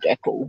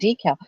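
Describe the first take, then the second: First: It is said the Australian way. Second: It is said the American way. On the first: "We say decal here in Australia" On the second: "my friends call it decal... that was the American way"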